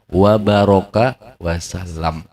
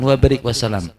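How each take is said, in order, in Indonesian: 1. Kata tengah diucapkan baraka. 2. Kata tengah diucapkan barik. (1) "Bacanya apa? Wa baraka wasalam" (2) "Jangan wa barik wasalam"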